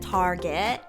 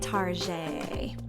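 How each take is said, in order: First: The name ends with a hard 'get' sound. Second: The name ends with a soft 'zhay' sound. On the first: "some people pronounce it Target" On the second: "but I like to say Tarjay"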